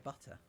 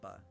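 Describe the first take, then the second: First: The t in the middle is clearly pronounced. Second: The t in the middle is dropped. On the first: This is how the speaker says it. "I say butter" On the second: This is how some other people say it. "Some people would say butter"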